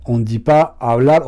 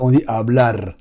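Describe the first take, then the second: First: "hablar" with the final r trilled hard; mock the teachers, roll the end of "hablar"; wrong rolled final r. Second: "hablar" with a light tapped final r; correct single r. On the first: Teacher's wrong rolled "hablar", imitated mockingly. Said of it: "profs d'espagnol, qui vont dire hablar". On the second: Shown as a demonstration. Correcting the teachers, plain tapped "hablar". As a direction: say "hablar" the right way, no trill at the end. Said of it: "c'est hablar".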